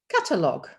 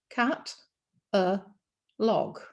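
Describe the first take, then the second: First: It is said smoothly as one word. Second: It is said as three separate chunks. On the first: It refers to a list of goods. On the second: It refers to a cat on a log.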